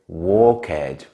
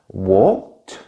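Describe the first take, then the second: First: The ending is said as a separate syllable. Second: The ending is a short t sound. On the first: The speaker calls it wrong. "A very common mistake is to pronounce it like ed. Some people therefore would say walk-ed" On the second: The speaker calls it right. "Usually the ending is pronounced like a t sound"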